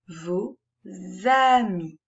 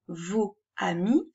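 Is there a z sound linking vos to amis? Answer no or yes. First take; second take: yes; no. First: A z sound links vos to amis. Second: No z sound links vos to amis. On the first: The speaker calls it right. "nous faisons la liaison" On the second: The speaker calls it wrong. "ça n'est pas très joli"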